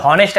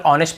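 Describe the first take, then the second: First: हॉनेस्ट with an audible initial H; H sounded. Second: Said in the usual way. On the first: Shown as a demonstration. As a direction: misread honest as हॉनेस्ट, breathing the H. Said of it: "हॉनेस्ट ऐसे बोल देते हैं". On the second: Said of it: "हमें केवल ऑनेस्ट पढ़ना है".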